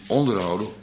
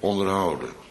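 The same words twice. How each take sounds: First: The stress is on the first syllable. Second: The stress is on the third syllable. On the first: To keep someone down or subjugated. The speaker calls it wrong. "En niet onderhouden" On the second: To provide for someone's needs. The speaker calls it right. "En die klemtoonverandering"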